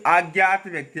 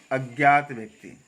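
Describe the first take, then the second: First: अज्ञात opening on a long आ; wrong pronunciation. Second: अज्ञात with a short अ, lower; correct pronunciation. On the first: Teacher quoting how people say it, wrong pronunciation. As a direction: stretch the first vowel of अज्ञात. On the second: Teacher correcting the slip, correct pronunciation. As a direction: open अज्ञात on a brief vowel. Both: Shown as a demonstration. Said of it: "अज्ञात नहीं".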